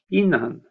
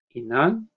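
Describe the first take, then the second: First: The pitch starts higher and falls at the end. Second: The pitch starts low and rises at the end. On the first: "Det börjar lite högre och sen slutar det lägre" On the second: "Tonen går upp i slutet"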